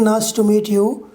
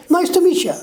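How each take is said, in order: First: "meet you" as two words; unreduced pronunciation. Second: Higher, linked "meecha" for "meet you"; fuse "meet you" into "meecha"; reduced form. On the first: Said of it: "It's not saying". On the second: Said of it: "What he says". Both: Shown as a demonstration.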